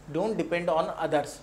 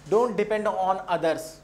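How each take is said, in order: Both takes have the same delivery.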